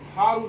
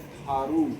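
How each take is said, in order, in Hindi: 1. अंतिम स्वर ह्रस्व है। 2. अंतिम स्वर दीर्घ है। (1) "नहीं पढ़ते हैं" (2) "इसको पढ़ते हैं"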